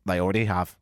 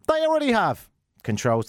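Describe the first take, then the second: First: Said in the usual way. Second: High, exasperated outburst; exasperated retort. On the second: Acted. Host rebutting Apple's feature list, exasperated retort. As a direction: pitch it up in exasperation.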